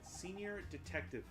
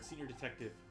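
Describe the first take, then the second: First: It is said slowly and deliberately. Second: It is said at a normal speed.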